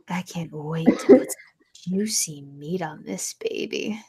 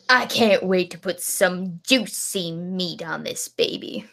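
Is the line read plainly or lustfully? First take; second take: lustfully; plainly. First: It is read in a lustful, leering way. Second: It is read in a plain, neutral way.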